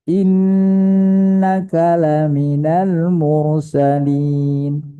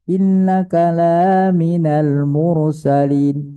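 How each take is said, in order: First: The vowel of 'la' is kept short. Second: The vowel of 'la' is drawn out long. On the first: The addressee is truly among the messengers. The speaker calls it right. "itu pendek" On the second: The addressee is not among the messengers. The speaker calls it wrong. "Kalau kita baca kata panjang"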